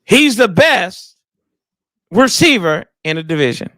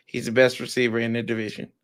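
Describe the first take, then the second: First: Said with chest. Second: Low, soft, half-hearted statement; unconvincing claim. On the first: Pretend. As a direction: push it out from the chest, pausing after BEST. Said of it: "Say it with your chest". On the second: Real, not acted. Backing his receiver to a co-host, low and unconvincing. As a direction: say it small and low, without conviction. Say it with your chest.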